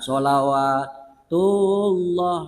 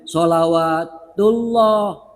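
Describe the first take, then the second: First: The vowel in 'lah' is held short. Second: The vowel in 'lah' is held long. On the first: The speaker calls it wrong. "Itu salah" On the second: The speaker calls it right. "Seharusnya sholawatullah. Allahnya dipanjangkan"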